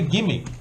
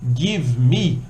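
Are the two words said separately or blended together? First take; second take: blended; separately. First: The two words are blended into one relaxed word. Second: The two words are said fully and separately. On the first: "People usually say "gimme,"" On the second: "instead of saying"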